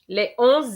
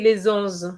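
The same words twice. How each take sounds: First: No z sound links les to onze. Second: A z sound links les to onze. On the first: The speaker calls it right. "We have to say les onze étages" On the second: The speaker calls it wrong. "we can't say les onze"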